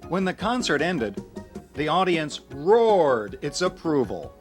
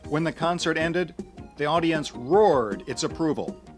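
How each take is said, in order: First: The second half is said noticeably slower. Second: The second half is said at normal speed.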